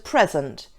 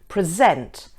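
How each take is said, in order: First: The stress is on the first syllable. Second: The stress is on the second syllable. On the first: The word is used as a noun. "If the word is being used as a noun, the stress is on the first syllable" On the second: The word is used as a verb. "If it's being used as a verb, the stress is on the second syllable"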